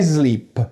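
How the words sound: A voiced s that sounds like z. "We bring this into English"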